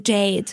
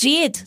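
First: Not the Berlin "Jade", the plain one; standard pronunciation. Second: "Jade" said the Berlin way, as "Schet"; Berlin-style "Jade", like the clip; Berlin pronunciation. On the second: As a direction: give "Jade" a hard Berlin "sch" sound. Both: Shown as a demonstration. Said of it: "Du sagst dann Jade und nicht".

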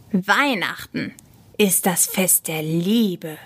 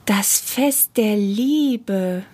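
First: Slow, emphatic declaration; measured, earnest correction; solemn insistence. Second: Very slow, dreamy echo; drawn-out, softened wonder; wondering repetition. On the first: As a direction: state it slowly and with weight. Michi solemnly defends Christmas. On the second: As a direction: repeat it slowly, letting anger melt away. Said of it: "wiederholte sie". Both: A narrator's reading.

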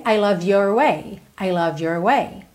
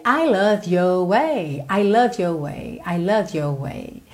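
First: "I love your way" with the R in "your" sounded; curled R. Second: "I love your way" with "your" as "yo"; non-rhotic R. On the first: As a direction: curl the tongue on "your" before "way". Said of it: "Se você enrolar o R". ("your" com o R enrolado) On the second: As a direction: glide from "your" to "way" with no curled R. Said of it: "Sem enrolar o R". ("your" sem enrolar o R) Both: Shown as a demonstration.

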